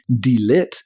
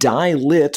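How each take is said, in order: First: 'Die' is pronounced as the German word. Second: 'Die' is pronounced as the English word.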